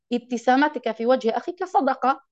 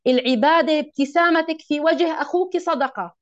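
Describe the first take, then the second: First: أخيك said in classical form, "akhika"; correct classical form. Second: أخوك said in dialect, "akhuki"; first take with the everyday أخوك, "akhuki"; colloquial wording. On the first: Teacher corrects herself to the classical أخيك, "akhika". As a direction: fix it to the proper أخيك, "akhika". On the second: Teacher quotes the hadith loosely, saying أخوك as "akhuki". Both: Shown as a demonstration.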